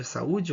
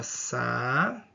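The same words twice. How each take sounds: First: Said in the usual way. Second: "Sa-u-de" drawn out with long gaps between syllables; syllable-by-syllable separation. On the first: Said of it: "Vou fazer a separação silábica". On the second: Shown as a demonstration. Teacher separating the word for students, "Sa-u-de" slowly syllable by syllable. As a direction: stretch and separate each syllable of "Sa-u-de". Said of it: "Vou fazer a separação silábica aqui".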